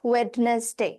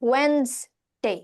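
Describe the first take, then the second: First: Every letter is sounded, including the middle d. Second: The middle d is silent, in two syllables. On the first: The speaker calls it wrong. "Not ওয়েডনেসডে" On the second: The speaker calls it right. "It's ওয়েনসডে"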